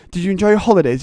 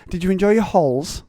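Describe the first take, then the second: First: "holidays" said in full, high and loud; mock full word. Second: "halls" clipped short in high teacher voice; mock abbreviation. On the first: Teacher saying the full word before abbreviating, loud mock. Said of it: "Why say the full word". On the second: Teacher abbreviating holidays to "halls", high and mocking. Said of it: "Why say the full word and then".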